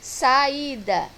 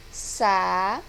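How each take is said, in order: First: Said in the usual way. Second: Sa-i-da spoken in three separate syllables; sa-i-da chopped into syllables. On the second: Shown as a demonstration. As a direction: break sa-i-da into clear beats.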